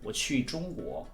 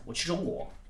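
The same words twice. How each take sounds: First: The phrase is spoken at a moderate speed. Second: The phrase is spoken very fast. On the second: "Even faster"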